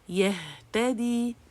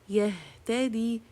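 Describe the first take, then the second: First: The h sound is strong, from deep throat. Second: The h sound is weak and barely heard. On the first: The speaker calls it right. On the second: The speaker calls it wrong.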